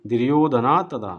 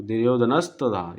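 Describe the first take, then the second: First: दुर्योधना तदा with a full open 'ना' before तदा, no 's' sound; careful correct shloka pronunciation of दुर्योधना तदा; correct Sanskrit reading. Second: दुर्योधनस तदा with an 's' run into तदा; common mistaken reading. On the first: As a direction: say दुर्योधना clearly, then a separate तदा. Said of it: "सही से पढ़ लेंगे". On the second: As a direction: slur दुर्योधनस तदा the way people usually misread it. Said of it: "यहाँ पे इस तरह से हम लोग पढ़ रहे थे". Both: Shown as a demonstration.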